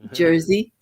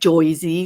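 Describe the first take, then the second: First: The first vowel is an 'er' sound. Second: The first vowel is an 'oy' sound. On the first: This is the speaker's own way of saying it. "I say Jersey" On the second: This is how other people say it. "I don't say it like Joyzy, like people do"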